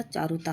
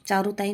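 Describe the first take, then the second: First: Said in the usual way. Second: चारुताई with an extra final "ee"; wrong form. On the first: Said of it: "होता है". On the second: Shown as a demonstration. Teacher showing what is not written, wrong चारुताई ending in "ee". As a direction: end चारुताई on "taa-ee". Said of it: "नहीं लिखा जाता".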